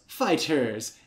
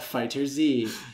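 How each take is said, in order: First: The name ends in a plain s-sound. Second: The name ends with a separate letter Z. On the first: The speaker calls it right. "it is pronounced Fighters" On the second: The speaker calls it wrong. "It is not Fighter Z"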